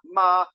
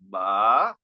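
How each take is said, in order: First: The pitch stays high and level. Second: The pitch goes up and then down. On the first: It means mother. "it's all a high, steady tone" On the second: It marks a question. "this one goes up and down"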